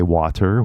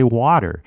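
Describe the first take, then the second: First: WATER with a fully sounded T; hard-T WATER. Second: WATER with a D sound for the T; California WATER. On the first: Teacher shows what Californians don't say, WATER with a hard T. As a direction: release the T in WATER clearly. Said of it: "we don't say water". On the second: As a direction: flap the T in WATER like a quick D. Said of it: "we say water". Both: Shown as a demonstration.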